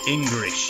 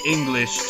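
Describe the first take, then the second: First: The middle consonant is an R sound. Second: The middle consonant is an L sound. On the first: "So an L becomes an R" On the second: "the Japanese don't seem to pronounce the letter L"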